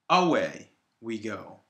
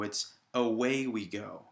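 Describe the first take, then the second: First: The stress is on the first syllable, 'a'. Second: The stress is on 'way' and 'go'. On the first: The speaker calls it wrong. "If we put a stressed sign on the first uh, syllable here, it would read" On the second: The speaker calls it right. "the stressed syllable is on way and go"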